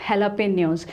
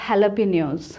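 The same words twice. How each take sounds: The two takes are said the same way.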